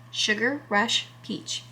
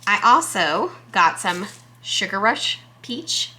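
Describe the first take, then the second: First: "Sugar Rush Peach" said slowly and softer, lingering on "Sugar"; softly savored name. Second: Said in the usual way. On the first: Real, not acted. Repeating a pepper name she loves, slow and soft.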